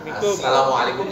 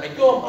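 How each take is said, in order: First: Every syllable of the greeting is said clearly. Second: Only the last syllables are said, mumbled together. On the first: The speaker calls it right. "Assalamualaikum jelas" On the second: The speaker calls it wrong. "itu yang tak jelas itu"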